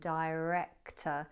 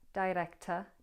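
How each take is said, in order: First: The R is bunched without a tap. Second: The R is a tongue-tip tap. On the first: "I'd say adorable and director. So I bunch the tongue for my R" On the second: "this tapped R"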